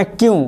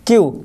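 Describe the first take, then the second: First: क्यू with a nasal ending and a rising tune, the wrong way; क्यू ending in a nasal hum that rises; wrong nasal kyu. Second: क्यू with a clean, unnasal ending and a falling tune; plain falling क्यू without the nasal; correct kyu. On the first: Teacher to students, showing the wrong nasal क्यू. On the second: Teacher to students, giving the correct क्यू. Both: Shown as a demonstration. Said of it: "जो अंक की बिंदी है, वो नहीं बताना".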